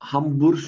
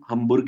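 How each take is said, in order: First: The final sound is a soft sh-like sound. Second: The final sound is a hard g sound. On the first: This is how northern Germans say it. "North वाला इलाका है ना, यहाँ पे हमबुर्श बोला जाता है" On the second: This is how southern Germans say it. "South वाला इलाका ... गे को हम्बुर्ग ही बोलेंगे"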